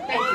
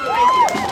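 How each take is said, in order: First: Said in the usual way. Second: Far higher and louder cry; shouted thanks. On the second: Real, not acted. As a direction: belt it out to the crowd. Thanks repeated, shouted to crowd.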